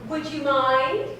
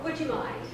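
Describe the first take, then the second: First: Pointed, firmer repeat; insistent. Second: Quiet, pointed hint. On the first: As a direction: push it this time, insistent. Repeats request more firmly. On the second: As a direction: drop your voice and hint. Asks secretary to leave. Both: Acted.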